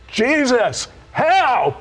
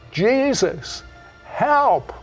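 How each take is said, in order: First: It is said with strong, intense emotion. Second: It is said calmly, with little emotion.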